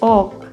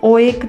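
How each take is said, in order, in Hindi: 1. एक लंबा ओ स्वर है, इसलिए एक अक्षर बनता है। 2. दोनों स्वर बोले जाते हैं, इसलिए दो अक्षर बनते हैं। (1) "फर्स्ट वोल की लॉन्ग साउंड आएगी और दूसरा साइलेंट रहेगा" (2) "इसे ओ एक नहीं बोलेंगे"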